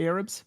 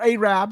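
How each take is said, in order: First: The word has a standard, neutral pronunciation. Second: The word has a local regional pronunciation.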